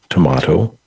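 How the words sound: It has another regional pronunciation.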